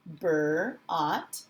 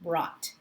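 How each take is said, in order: First: "Bur-, ought" split into b-r, pause, then ought; sounded out. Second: Said in the usual way. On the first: Shown as a demonstration. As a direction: break brought into "Bur-" and "ought". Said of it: "the ending of the word brought". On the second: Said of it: "the word brought".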